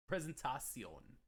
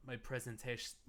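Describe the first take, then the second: First: "presentation" said slowly as "prezen-TAH-syon"; playful foreign pronunciation. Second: Said in the usual way. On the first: Pretend. Streamer correcting themselves in jest, "presentation" slowly as "prezentah-syon". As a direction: stretch "presentation" out, ending in "tah-see-ohn". Word repeated in mock foreign form.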